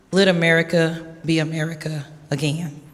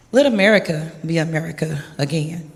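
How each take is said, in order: Both takes have the same delivery.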